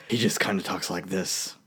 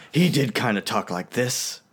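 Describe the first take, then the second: First: Low, soft Batman without the gravel; understated deep superhero voice; Affleck. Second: Slow, slightly menacing nasal hero; lightly nasal animated-hero voice, unhurried; nasal Batman. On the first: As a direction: drop low and quiet, no growl. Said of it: "I don't even think Affleck does that". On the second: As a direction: put a little more emphasis in, nasally. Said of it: "like, nasally". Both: Shown as a demonstration.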